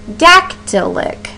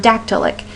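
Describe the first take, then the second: First: "dactylic" slowly, first syllable high and punched, two light after; stressed first syllable. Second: Said in the usual way. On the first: Shown as a demonstration. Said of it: "in order to get you to hear that". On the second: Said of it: "If we had the word dactylic".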